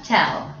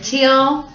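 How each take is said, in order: First: "tell" said with a short e vowel; "tell" pronounced. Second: "Teal" said with a long ee vowel; "Teal" pronounced. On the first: Teacher contrasting two sounds for the class, careful "tell". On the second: Teacher contrasting two sounds for the class, careful "Teal". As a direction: stretch the ee in "Teal". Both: Shown as a demonstration. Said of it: "Teal and tell".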